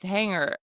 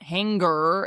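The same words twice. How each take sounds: First: A nasal NG sound with no hard G. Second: A hard G follows the N sound. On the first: The speaker calls it right. "it's hanger" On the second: The speaker calls it wrong. "it's not hanger"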